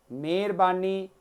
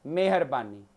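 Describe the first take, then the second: First: ਮਿਹਰਬਾਨੀ said as "merbani", the h dropped; ਮਿਹਰਬਾਨੀ, the sloppy everyday version; careless pronunciation. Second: ਮਿਹਰਬਾਨੀ as "meh-har-bani", h sounded; ਮਿਹਰਬਾਨੀ, carefully pronounced; correct pronunciation. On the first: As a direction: run ਮਿਹਰਬਾਨੀ together without the h. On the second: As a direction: say every syllable of ਮਿਹਰਬਾਨੀ with a falling tone. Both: Shown as a demonstration. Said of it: "ਸ਼ੁੱਧ ਅਸ਼ੁੱਧ ਦੀਆਂ".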